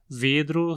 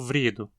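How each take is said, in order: First: The R sounds in the last syllable, after D. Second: The R sounds in the first syllable, after V.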